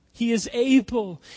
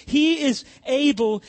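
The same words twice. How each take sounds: First: Said in the usual way. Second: "He" hit high and loud; rising declaration. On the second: Shown as a demonstration. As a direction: proclaim it stronger, a step higher. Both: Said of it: "repeated line, climbing".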